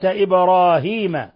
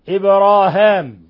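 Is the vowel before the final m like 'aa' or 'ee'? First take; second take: ee; aa. First: The vowel before the final m is long 'ee'. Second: The vowel before the final m is long 'aa'. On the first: This is the reading of the majority. "أما الجمهور وقراءة الجماعة" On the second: This is the reading of one reciter alone. "هشام وحده يقرأ في الموضعين إبراهام"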